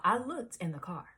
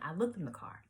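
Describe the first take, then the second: First: Said in the usual way. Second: "looked" leaned on with a falling finish; stress on looked. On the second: Shown as a demonstration. Telling friends she really did search the car, pressing on looked. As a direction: insist on "looked" with a firm drop. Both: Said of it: "Keep that in mind".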